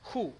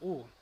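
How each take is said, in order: First: The vowel begins with a breathy h sound. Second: The vowel begins with no h sound. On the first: "Untuk upsilon dengan tanda hembus berbunyi, maka dia dilafalkan dengan hu" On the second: "Upsilon dengan tanda hembus tak berbunyi maka dilafalkan dengan U"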